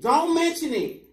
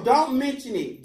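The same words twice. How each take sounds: First: "mention" punched high, slow; stress on MENTION. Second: "don't" punched high, slow; stress on DON'T. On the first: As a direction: lean on "mention" second time. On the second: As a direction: lean on "don't" first. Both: Acted. Repeated line, different stress.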